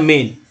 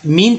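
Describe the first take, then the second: First: मेन with an "eh" vowel, like "men"; E as short e. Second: मीन with a long "ee" vowel; E wrongly as ee. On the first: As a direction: say मेन with E, not "ee". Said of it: "क्या उच्चारण हो रहा है". (मेन में ई का उच्चारण ए) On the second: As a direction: say मीन like "mean". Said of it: "मीन तो नहीं पढ़ रहे हैं". (मीन में ए की जगह लंबी ई) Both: Shown as a demonstration.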